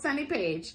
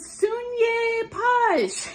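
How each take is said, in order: First: The name is said in a plain American way. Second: The name is given an unusual, exotic-sounding pronunciation. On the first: This is how the dancer's name is really said. The speaker calls it right. "just an American, plain old Sunny Page, just like it looks like" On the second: The announcer did not know the dancer yet. The speaker calls it wrong. "They come up with these crazy pronunciations for my name"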